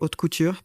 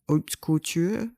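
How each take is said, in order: First: It is said with a French pronunciation. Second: It is said with an English-style pronunciation. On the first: "As a French person, I want to say haute couture, but then that sounds pretentious to just pronounce it French" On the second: "How do I even say that?"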